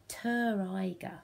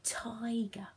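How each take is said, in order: First: "Ter Iger" with ter broken off as its own syllable; "Ter Iger" as two chunks, ter plus iger, the mistake to avoid; wrong split Ter Iger. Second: "Tiger" said smoothly as one word with a clean t; "Tiger" blended whole, the right way; correct careful Tiger. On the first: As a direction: chop "Ter Iger" into ter, then iger. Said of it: "Careful not to say ter". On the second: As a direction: say "Tiger" carefully, t joined straight onto iger. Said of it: "say it really carefully". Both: Shown as a demonstration.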